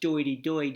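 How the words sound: It starts with d and drops the r.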